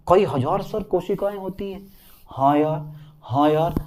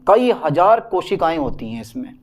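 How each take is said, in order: First: Soft, understated pupil voice; student's quiet echo. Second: Said in the usual way. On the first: Acted. Student checking the cell count with sir, softly. Acts out quiet exchange repeating the fact.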